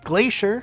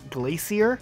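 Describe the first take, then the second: First: It sounds like the ordinary word 'glacier'. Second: It sounds like 'glassier', a comparative word. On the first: It names a large mass of ice. The speaker calls it right. "Level's called Glacier" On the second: Something is more glassy than something else. The speaker calls it wrong. "like something can be glacier than you"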